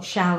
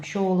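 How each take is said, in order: First: The vowel rhymes with 'gal'. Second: The vowel rhymes with 'gall'. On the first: "or shall and gal" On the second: "shall and gall would have rhymed in Shakespeare's time, shawl and gall"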